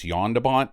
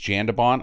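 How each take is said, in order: First: The name is said with a Dutch pronunciation. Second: The name is said with an English pronunciation. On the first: The speaker calls it right. "I think it's Jan de Bont because he's Dutch" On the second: The speaker calls it wrong. "I don't think it's Jan de Bont"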